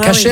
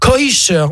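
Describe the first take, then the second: First: The first vowel is pronounced like 'a'. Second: The first vowel is pronounced like 'oi'. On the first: "au lieu de kasher" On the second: "les Américains prononcent à la sauce yiddish"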